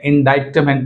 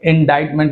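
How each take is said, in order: First: A k sound is pronounced before the t. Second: The c is silent, no k sound. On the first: The speaker calls it wrong. "इंडाइटमेंट नहीं कहना चाहिए" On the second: The speaker calls it right. "इंडाइटमेंट कहते हैं"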